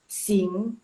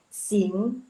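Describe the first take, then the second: First: The final ng sound is clearly emphasized. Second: The final ng sound is clearly emphasized.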